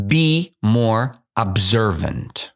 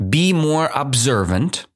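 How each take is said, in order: First: Slow, deliberate dictation. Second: Repeated higher, rising at the end; higher reread. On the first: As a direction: spell it out word by word. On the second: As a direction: read it again brighter. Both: Shown as a demonstration. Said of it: "I will read it again".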